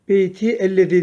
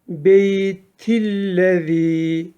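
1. İki kelime ayrı okunur, ünlü korunur. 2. İki kelime tek kelime gibi birleşik okunur. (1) "beyti ellezî demiyoruz" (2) "Eğer geçersek beytillezî"

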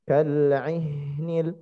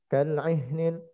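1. Bunyi h dipanjangkan dengan nafas yang mengalir. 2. Bunyi h dipendekkan tanpa nafas yang mengalir. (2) "salah kalau dibaca"

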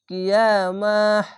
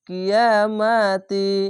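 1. শব্দটি 'h' শব্দ দিয়ে শেষ হয়। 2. শব্দটি 'ti' শব্দ দিয়ে শেষ হয়। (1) "এখানে থামতে হবে, তার জন্য হা হয়ে যাবে" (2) "আর যদি না থামলে কিয়ামাতি"

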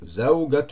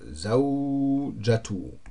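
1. Der mittlere Konsonant ist ein hartes G. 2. Der mittlere Konsonant ist ein J-Laut. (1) "Ich habe Sauge gesagt" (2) "hier in dem Buch wird das J gesprochen"

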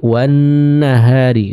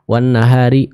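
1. Bunyi sengau n ditahan selama dua ketukan. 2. Bunyi sengau n dipotong pendek. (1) "dibaca dengan dua harakat" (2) "Bukan wan nahari"

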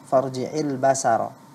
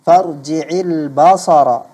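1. Bunyi s itu ringan dan biasa. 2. Bunyi s itu berat dan emfatik.

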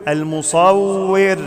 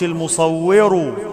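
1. الراء الأخيرة تُنطق بدون حركة. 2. الراء الأخيرة تليها حركة. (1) "لما نقف على كلمة المصور بسكن الراء" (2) "ما قولش المصور"

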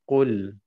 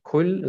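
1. Das Wort beginnt mit einem tieferen Kehllaut. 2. Das Wort beginnt mit einem einfachen k-Laut. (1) "sondern Rull" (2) "Nicht Kull"

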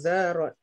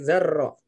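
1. Bunyi r-nya pendek dan tunggal. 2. Bunyi r-nya ditahan panjang dan ganda. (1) "Jangan zarro" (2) "tapi zarro, gitu ya. Ro-nya tasdid"

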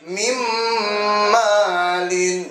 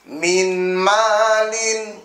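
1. Bunyi n menyatu dengan m dengan dengung sengau. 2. Bunyi n diucapkan dengan jelas sebelum m.

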